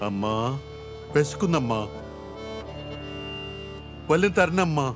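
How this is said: It is said softly, in a restrained, reflective way.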